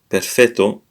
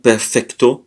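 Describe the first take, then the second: First: A double t with no k sound. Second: A k sound comes before the t. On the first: The speaker calls it right. "but perfetto" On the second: The speaker calls it wrong. "It's not perfecto"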